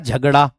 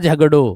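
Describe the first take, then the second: First: The word ends in a long 'aa' vowel. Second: The word ends in an 'o' vowel. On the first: This is the Khari Boli form. "खड़ी बोली में आकार बहुला में मैं कह दूंगा" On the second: This is the Braj Bhasha form. "Brajbhasha में झगड़ो"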